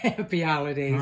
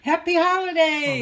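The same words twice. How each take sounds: First: It is said flatly, without enthusiasm. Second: It is said brightly, with enthusiasm.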